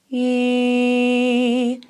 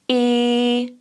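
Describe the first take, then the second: First: The vowel starts smoothly with no pop or breath. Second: The vowel starts with a small glottal pop. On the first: "the start of the note has a smooth start" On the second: "you'll hear almost a little pop at the beginning"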